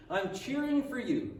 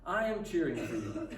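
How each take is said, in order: First: Said in the usual way. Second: Full "I am", set down low and deliberate; emphatic encouragement. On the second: Acted. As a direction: say "I am cheering for you" uncontracted, lower, as a firm assurance. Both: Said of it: "Can you make that your tone".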